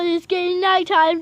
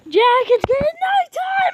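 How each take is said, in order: First: Said in the usual way. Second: Panicked shout. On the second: Real, not acted. Warning Jack as night falls, panicked shout. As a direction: yell nighttime in alarm.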